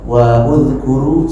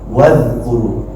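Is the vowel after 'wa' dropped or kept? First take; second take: kept; dropped. First: The vowel after wa is kept, as separate words. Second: The vowel after wa is dropped, linked together. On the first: The speaker calls it wrong. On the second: The speaker calls it right. "kalau sambung wadhkuru"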